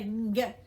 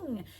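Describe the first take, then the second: First: The n and g are sounded separately. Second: The n and g merge into one sound. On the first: The speaker calls it wrong. "it's got that n and that g, but we don't say ng" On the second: The speaker calls it right. "We say ng. Makes a whole new sound"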